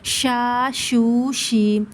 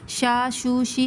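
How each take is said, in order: First: The vowels are drawn out long. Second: The vowels are cut short. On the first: The speaker calls it right. "एक अलिफ की मकदार हमें इनको दराज करना है" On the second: The speaker calls it wrong. "ऐसे नहीं पढ़ना"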